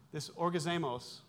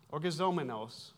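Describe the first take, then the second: First: "orgazemos" said with the middle syllable dropped, as or-ga-ZE-mos; mispronounced Greek word. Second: "orgazomenos" said in full as or-ga-ZO-me-nos, with the final s held; corrected Greek word. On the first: Preacher stumbles over the Greek word "orgazemos". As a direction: slip on "orgazemos", clipping the word short. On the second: Preacher corrects himself to the right Greek "orgazomenos". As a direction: carefully restate "orgazomenos" with every syllable in place. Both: Real, not acted.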